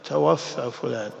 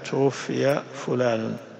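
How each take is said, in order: First: The verb takes the active vowel pattern. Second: The verb takes the passive vowel pattern. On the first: The deceased is framed as doing the taking. The speaker calls it wrong. "وفي خطأ مش شائع يقال توفى فلان" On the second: The deceased is framed as being taken. The speaker calls it right. "الأفضل أن تنطق بنائب الفاعل توفي فلان"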